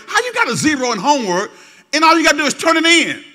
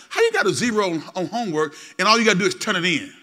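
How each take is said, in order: First: Much louder and higher scolding yell; parent yelling. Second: Said in the usual way. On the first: Acted. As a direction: shout the question at your teenager. Scolding question repeated, louder.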